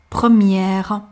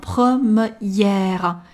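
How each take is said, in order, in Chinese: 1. m 和后面的元音是连贯地发在一起的。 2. m 和后面的元音是分开发的。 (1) "我们还需要把m 和y 发连贯，mie 是一组的" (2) "不要发成"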